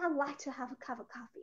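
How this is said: It is spoken in a British accent. "British অ্যাকসেন্টে বলতেছে"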